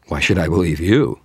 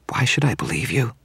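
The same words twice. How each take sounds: First: Louder retort with stress on you; countering. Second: Higher whispered vampire question; hissed question. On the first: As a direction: throw the question back at her. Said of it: "I countered". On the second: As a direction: hiss it back in suspicion. Vampire then wizard repeat line. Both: Acted.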